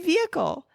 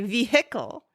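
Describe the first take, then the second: First: The h sound in the middle is silent. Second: The h sound in the middle is pronounced. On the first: This is how the speaker says it. "I say vehicle" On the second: This is how the other person says it. "You say vehicle"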